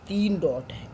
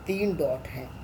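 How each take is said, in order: Both takes have the same delivery.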